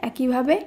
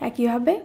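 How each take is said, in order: Both takes have the same delivery.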